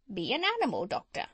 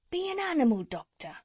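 First: Quick parrot voice with a big swoop. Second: High, quick, urging tradesman; cat's meat man. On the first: Parrot urging the doctor, quick swooping bird voice. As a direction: urge it like a bossy bird. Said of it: "the parrot flew off the window". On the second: Cat's meat man urging the doctor, high and brisk. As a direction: press the advice home, high and brisk. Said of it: "answered the cat's meat man". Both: A narrator's reading.

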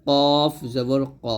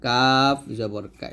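First: কফ জবর ক slow and thick; Arabic qaf heavy. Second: কাফ জবর কা slow and thin; light forward কা; Arabic kaf light. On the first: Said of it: "কফটা মোটো হবে". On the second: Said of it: "কাফটা হবে পাতলা". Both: Shown as a demonstration.

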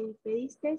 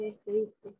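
First: "despediste" with an extra final S; despediste with added S. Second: Said in the usual way. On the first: Shown as a demonstration. Student showing the class the error, "despediste" with final S added. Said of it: "no se dice". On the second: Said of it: "se dice".

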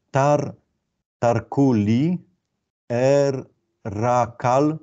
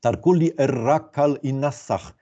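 First: Very slow, stretched syllables, slightly raised. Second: Measured, deliberate reading of the whole phrase; joined-up reading. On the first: Lecturer reading Akkadian signs aloud to students, syllable by syllable. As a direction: sound out "tarkuli er rakal" in separate drawn-out pieces. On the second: Lecturer putting the deciphered verse together, joined-up reading. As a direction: read "Tarkuli er rakal i nasach" as connected words, unhurried. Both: Shown as a demonstration.

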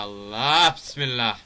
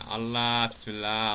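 First: Slow invocation, raised in volume; louder drawn-out exclamation. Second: Slow invocation at normal volume; drawn-out exclamation. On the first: Player alarmed at a game hazard, loud drawn-out exclamation. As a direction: stretch it out and push it louder. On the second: Player bracing at a game hazard, drawn-out exclamation. Repeated exclamation, first take milder. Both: Real, not acted.

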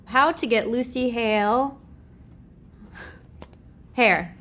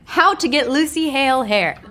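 First: Said in the usual way. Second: Louder re-read. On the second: Real, not acted.

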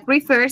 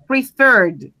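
First: "prefer" said quickly as the rejected form; fast "prefer" before the correction; wrong form. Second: "preferred" said slowly with the doubled r ending; slow, careful "preferred"; correct form. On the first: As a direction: toss off "prefer" as the wrong answer. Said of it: "ya no sería prefer". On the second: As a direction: stretch out "preferred" as the right answer. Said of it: "sino preferred". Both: Shown as a demonstration.

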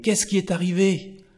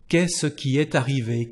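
First: "Qu'est-ce qui est arrivé?" asked higher, alarmed; surprised. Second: Said in the usual way. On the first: Shown as a demonstration. Teacher acting someone alarmed by bad news, asking higher. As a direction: ask what happened as if shocked. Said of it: "Oh là là". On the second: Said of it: "what happened".

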